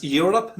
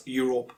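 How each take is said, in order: First: Europe as YOOR-up, weak second vowel; correct pronunciation. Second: Europe as YOO-rope; mispronunciation. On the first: Teacher giving the right form, correct Europe. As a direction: say "Europe" with a short uh in the last syllable. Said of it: "it's pronounced". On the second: Teacher showing what to avoid, mispronounced Europe. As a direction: say "Europe" with a full O in the second syllable. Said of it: "not Europe". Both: Shown as a demonstration.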